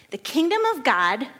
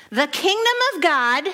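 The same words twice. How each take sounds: First: Said in the usual way. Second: The kingdom of God said higher and louder, proclaiming; raised voice. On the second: Shown as a demonstration. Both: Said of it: "I hope he raised his voice, 'cause I am".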